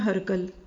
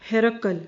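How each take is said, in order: First: The first syllable is said without an i vowel. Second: The first syllable is said with an i vowel. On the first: The speaker calls it wrong. "اچھا لفظ اردو میں ہم کیا پڑھ دیتے ہیں؟" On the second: The speaker calls it right. "ہا کی زیر، را پہ زبر ... قاف پہ جزم اور لام پہ زبر"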